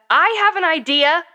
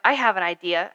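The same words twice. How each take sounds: First: High, loud, drawn-out yell; narrated yell. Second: Said in the usual way. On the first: A narrator's reading. A kid yells over friends who keep ignoring the idea, yelling. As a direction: yell it slowly to be heard. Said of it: "I yelled". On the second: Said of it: "I suggested".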